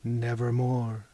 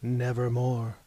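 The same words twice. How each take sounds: First: Low, slow and grave; raven's reply. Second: Low, grave and final; raven's reply. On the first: The captain answering Mahogany, low and slow. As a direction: draw it out like a tolling bell. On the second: The captain answering Mahogany, low and ominous. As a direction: intone it like Poe's raven. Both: A narrator's reading. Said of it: "Quoth the captain".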